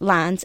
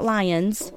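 First: The name sounds like the word 'lines'. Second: The name does not sound like 'lines'. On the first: The speaker calls it right. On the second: The speaker calls it wrong. "not Lyons"

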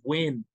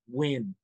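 First: It is said firmly, with more authority. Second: It is said softly, without much force.

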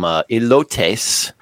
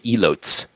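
First: The word has a Spanish-style pronunciation. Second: The word has an English-style, as-written pronunciation. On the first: The speaker calls it right. "I think I'm saying that right" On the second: The speaker calls it wrong. "That's the gringo way to say it"

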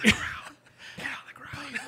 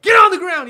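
First: It is said in a whisper. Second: It is said in a full, normal voice.

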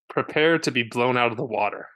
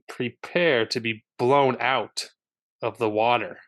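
First: It is said plainly, without extra emphasis. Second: It is said with strong emphasis on words.

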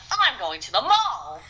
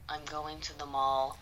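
First: It is said with lively, rising emotion. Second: It is said in a tense, flat voice.

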